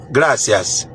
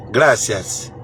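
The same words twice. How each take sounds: The two takes are said the same way.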